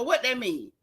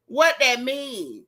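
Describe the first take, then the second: First: Said in the usual way. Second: What that mean? dragged out slowly, every word weighed; slow mocking repeat. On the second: Shown as a demonstration. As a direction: stretch out What that mean? to mock her. Repeats the question for effect.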